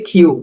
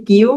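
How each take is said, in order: First: কিউ said with an aspirated kh, like "khiu"; corrected letter name. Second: Said in the usual way. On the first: Shown as a demonstration. Teacher contrasting the two কিউ, aspirated demo. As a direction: breathe out hard on the k in কিউ. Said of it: "এটির উচ্চারণ হবে". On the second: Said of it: "আমরা পড়ি কিউ".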